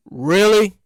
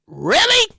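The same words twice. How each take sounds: First: Low-pitched, unimpressed really; mock disbelief. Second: High-pitched, questioning really; incredulous disbelief. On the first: Podcaster told of yet another cousin, low doubtful reaction. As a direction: drop the pitch in deadpan doubt. Acted reaction to claimed relatives. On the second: Acted. Podcaster told of yet another cousin, high incredulous reaction. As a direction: jump the pitch up in doubt.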